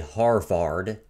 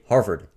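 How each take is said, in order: First: The last syllable has a full open 'ah' vowel. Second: The last syllable has a reduced 'uh' vowel. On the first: "you don't say Harvard ... It's supposed to be ah" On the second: "you say Harvard ... but you say uh"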